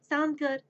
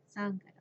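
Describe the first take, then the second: First: Higher-pitched "Sound good?", asked openly; "Sound good?" lifted as a question; checking question. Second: Hushed, near-whispered reply; small, whispery confirmation; quiet agreement. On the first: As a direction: ask "Sound good?" brightly for agreement. Asks listener, then answers softly. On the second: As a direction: agree under your breath. The soft answer to own question. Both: Acted.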